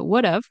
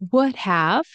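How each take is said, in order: First: It is reduced and blended into 'woulda'. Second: Both words are said fully and separately. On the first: "which turns into would have"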